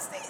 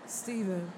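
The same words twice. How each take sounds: First: The name is shouted in a panicked, frantic way. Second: The name is called in a controlled, composed way. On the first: The character has lost her composure. The speaker calls it wrong. "I can never be like, oh, my God, Steven!" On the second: The character stays in control even when alarmed. The speaker calls it right. "calm down. Steven"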